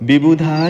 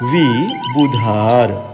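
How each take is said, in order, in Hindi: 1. पहला व्यंजन बंद होठों से बोला जाता है। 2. पहला व्यंजन होठ बंद किए बिना बोला जाता है। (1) "अब विभुधार मत पढ़िएगा" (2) "वजन वाला व जिसमें होठ नहीं मिलते हैं"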